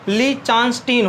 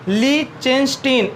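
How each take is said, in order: First: The middle syllable has an 'aa' vowel. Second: The middle syllable has an 'e' vowel.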